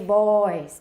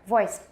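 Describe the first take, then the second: First: The vowel is drawn out long. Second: The vowel is said very short. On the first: The speaker calls it wrong. "don't say voiced" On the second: The speaker calls it right. "Make that all really short"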